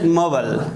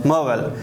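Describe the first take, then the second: First: It is said in an American accent. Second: The same.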